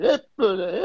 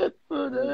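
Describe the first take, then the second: First: Said in the usual way. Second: Pitched way up and soft, a mocking model voice; mocking imitation. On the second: Scoffing at models who pose nonstop, high soft mockery. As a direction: lightly ham up the posing.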